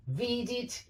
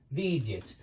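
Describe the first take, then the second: First: Видит held high with a clear final i; clear -it ending. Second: Видят falling low, with a loose vowel before t; loose -yat ending. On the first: Teacher repeats the slight difference, high видит ending in -it. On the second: Teacher repeats the slight difference, low видят ending in -yat. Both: Shown as a demonstration. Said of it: "They're slightly different".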